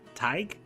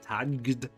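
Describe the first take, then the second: First: The word ends with a g sound. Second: The word ends with a d sound. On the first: The speaker calls it right. "it is actually tag" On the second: The speaker calls it wrong. "it looks like tagged"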